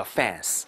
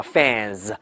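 First: "fans" with a hissed voiceless s, "fanss"; 错误读法. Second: "fans" ending in a buzzing voiced z, "fanz"; 词尾浊化. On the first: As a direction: wrongly end "fans" on a sharp s, no buzz. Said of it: "不能叫fans". (把"fans"词尾错读成清音s，不带浊音) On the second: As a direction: voice the final consonant of "fans" as z. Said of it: "发浊化". ("fans"词尾发浊音z) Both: Shown as a demonstration.

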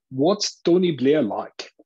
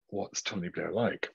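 First: Slow, higher, louder South African drawl on "what's Tony Blair like?"; a keen audience member's slow South African question; South African accent. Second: Said in the usual way. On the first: Retold or imitated. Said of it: "said in a South African accent". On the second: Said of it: "How would I know?".

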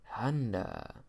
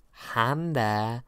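First: Said in the usual way. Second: Honda drawn out with a rising, open "Hon-dah"; playful pronunciation. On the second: Shown as a demonstration. Host listing earnings reports, playful rising Honda. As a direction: sing Honda up with a lilt.

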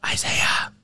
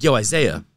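First: An unvoiced, breathy "Isaiah"; whispering a name over a sleeper; whispered call. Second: A firm, raised wake-up call; a friend trying harder to wake a sleeper, louder. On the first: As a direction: whisper his name to wake him. Nudging sleeping friend harder. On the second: Retold or imitated. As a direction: call "Yo, Isaiah" out louder to rouse him. Shaking friend to wake him.

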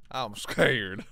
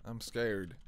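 First: Sudden Texan twang, louder; Texan accent. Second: Said in the usual way. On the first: Real, not acted. Streamer to chat, slipping into a Texan accent. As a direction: drawl scared like a Texan. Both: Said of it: "turned into a Texan right there".

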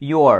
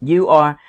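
First: "your" blended into one gliding word; contracted you're. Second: "you are" as two separate words; full you are. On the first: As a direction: run you and are together as "your". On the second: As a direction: keep "you" and "are" apart. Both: Shown as a demonstration. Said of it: "you are đọc là your".

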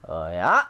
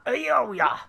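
First: Low, punched "oh yeah". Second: High, playful drawn "oh yeah". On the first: Player cheering the move on, low "oh yeah". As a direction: start down low and push it out. Low first take of two. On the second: Player repeating the cheer, high playful "oh yeah". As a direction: swoop it up high. High second take of two. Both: Pretend.

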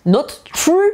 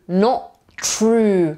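First: "not true" with both t's sounded, rising high like a question; high, questioning "not true" with a doubled t; t fully pronounced. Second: "not true" said as "no... true", with a gap; "not true" in two pieces, the first ending on the vowel; dropped t. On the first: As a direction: release the t in "not" before starting "true". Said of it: "czy coś innego?". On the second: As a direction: leave the t off "not", pause, then "true". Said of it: "To ty w wymowie tylko zniknie tutaj". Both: Shown as a demonstration.

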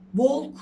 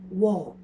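First: "Walk" as a loud "volk"; wrong walk, l sounded. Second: "Walk." as "wawk", no l, lower; loud "Walk." with long vowel and silent l; correct walk. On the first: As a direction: hit the l in "Walk" loudly, Turkish style. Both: Shown as a demonstration. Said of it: "Walk değil".

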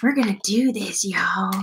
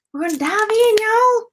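First: A light impression of the little guy from Gravity Falls; little cartoon guy. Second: Excited hype. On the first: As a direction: lower and softer, a lightly voiced cartoon sidekick. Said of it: "He talks like this". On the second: Real, not acted. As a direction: pitch jumps high, bouncy and eager. Hyped intro before the dig.

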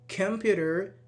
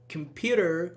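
First: Computer with a rising stressed take; stress shift demo. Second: Computer with stress on another syllable, level tune; alternative stress demo. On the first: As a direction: say computer stressing one syllable, rising at the end. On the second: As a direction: say computer moving the stress elsewhere. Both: Shown as a demonstration. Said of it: "I can say".

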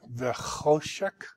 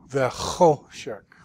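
First: Said in the usual way. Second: "Vechoshek" said slowly, with the weight on the middle syllable cho; drawn out slowly to show the accent on cho; stress on cho. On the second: Shown as a demonstration. Teacher models the word for the student, slowly, with stress on cho. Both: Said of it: "the accent in this word is on the cho".

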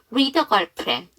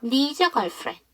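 First: Put-on "need a girlfriend", D linked into "a", no S; "read a" said as "nee-da", without any S sound; silent S linking. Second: "Needs a" linked with the D dropped, like "nee-za"; "Needs a girlfriend" with a linked S and no separate D; silent D linking. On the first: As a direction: drop the S and run the D into "a". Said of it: "S 발음 안 해서". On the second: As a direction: skip the D in "Needs" and slide its S into "a". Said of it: "D 발음을 하지 마세요". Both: Shown as a demonstration.

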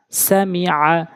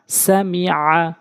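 Both takes have the same delivery.

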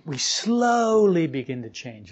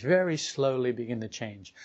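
First: Slowly stretched and drawn out, slow pace; stress on slowly. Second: Said in the usual way. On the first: Shown as a demonstration. Teacher to listeners about change, slowly drawn out. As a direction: linger on slowly to make the point.

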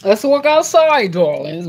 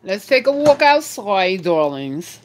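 First: Put-on higher, louder, slow posh accent. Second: Put-on posh accent. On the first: Playful posh accent inviting viewers outside. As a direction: drawl it out in a mock posh accent. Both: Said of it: "Y'all hear my little accent?".

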